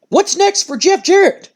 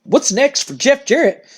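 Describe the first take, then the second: First: High, slow, earnest interviewer question; interviewer's question. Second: Slow, puzzled repeat of the question; confused mock echo. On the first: Retold or imitated. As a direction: lift it up like a reporter asking. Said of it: "And Cole goes". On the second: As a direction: echo it back like it's a dumb question. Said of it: "looks at him confused and goes".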